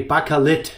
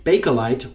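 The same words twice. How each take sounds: First: Bakelit said the German way, ending in a crisp -lit; German pronunciation. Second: Said in the usual way. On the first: Shown as a demonstration. Showing viewers the German name, German pronunciation of Bakelit. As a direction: give Bakelit its German sound, stress near the end. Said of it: "in German you would say". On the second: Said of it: "or in German you would say Bakelit".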